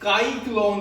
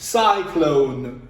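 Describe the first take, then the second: First: The word begins with a K sound. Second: The word begins with an S sound. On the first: The speaker calls it wrong. "ये काइक्लोन नहीं बना, काफ की आवाज नहीं आई" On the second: The speaker calls it right. "बल्कि सीन की आवाज आई है"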